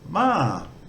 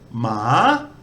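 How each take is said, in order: First: The syllable is said with a level mid tone. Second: The syllable is said with a rising tone. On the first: It means come. "For come, just a mid tone" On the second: It means dog. "It has a, a rising tone"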